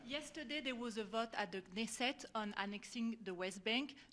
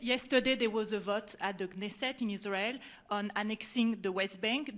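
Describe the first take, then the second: First: It is said at a quieter volume. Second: It is said at a louder volume.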